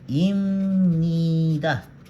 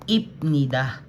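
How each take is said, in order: First: An m sound comes before the n. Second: A p sound comes before the n. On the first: "Ito yung pagbasa ko kanina" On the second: "kung babasahin natin based doon sa pinag-aralan natin, dapat ipnida"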